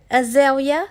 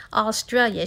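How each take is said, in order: First: "Azalea" said for Australia, uh-ZAY-lee-uh, a little high and loud; "Azalea" in place of Australia, as a small child says it; child's mispronunciation. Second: Said in the usual way. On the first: Retold or imitated. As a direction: mimic the kid saying "Azalea" instead of Australia. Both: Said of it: "She didn't know how to pronounce it".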